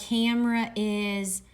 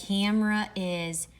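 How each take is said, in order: No difference in how they are said.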